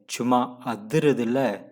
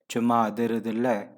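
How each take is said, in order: First: It is said with lively, energetic intonation. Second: It is said flatly, without liveliness. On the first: The speaker calls it right. "this is the tone and the life you have to say" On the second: The speaker calls it wrong. "you cannot say chuma adhirudilla. No, it's meaningless"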